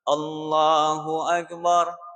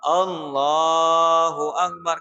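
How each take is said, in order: First: No vowel is drawn out beyond normal length. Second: The l sound in Allahu is drawn out long. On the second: "kan lamnya yang dipanjangkan"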